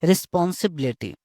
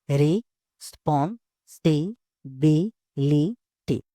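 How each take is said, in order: First: Said in the usual way. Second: "Responsibility" very slowly in six separate beats; re, spon, si, bi, li, ty, pausing after each in "Responsibility"; syllable by syllable. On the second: Shown as a demonstration. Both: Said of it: "किसी word को धीरे-धीरे बोलना है".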